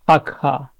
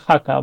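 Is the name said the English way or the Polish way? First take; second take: Polish; English. First: The name is said the Polish way. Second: The name is said the usual English way. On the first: "in Polish it's pronounced Akha, with pronounced H" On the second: "so I'm used to hearing Haka"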